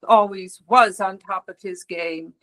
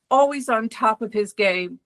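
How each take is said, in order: First: "was" punched as a correction; stress on WAS. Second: Said in the usual way. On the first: Acted. Office manager correcting a eulogy to past tense, stress on "was". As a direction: lean on the word "was" to fix the tense.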